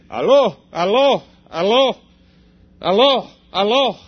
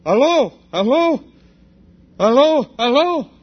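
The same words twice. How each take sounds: First: Imitating a man repeating "Aló" into the phone, a bit louder; Ukrainian phone greeting. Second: Higher, louder "Aló" repeated with a questioning rise; a foreigner trying out the local phone greeting, higher and louder; unsure phone greeting. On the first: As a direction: call "Aló" again and again like a man on a bad line. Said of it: "repeatedly he said". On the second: Retold or imitated. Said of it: "I picked the phone up and I go".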